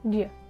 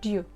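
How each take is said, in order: First: The reduced form ends in a schwa vowel. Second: The reduced form ends in an oo vowel. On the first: "Either with the schwa sound" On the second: "or with the u"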